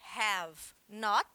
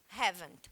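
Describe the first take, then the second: First: It is said as two separate full words. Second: It is said as one short contracted word. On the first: "ao invés de falar separado have not, que são duas palavras" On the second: "eu falo uma palavra só"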